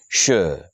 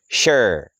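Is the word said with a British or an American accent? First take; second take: British; American. First: It is said British-style, without a final r. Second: It is said American-style, with a hard r.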